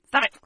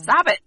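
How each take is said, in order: First: Said in the usual way. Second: Sudden loud mock scold; loud playful stop. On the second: Real, not acted. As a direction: bark it out, teasing. Playful scolding over mic bump.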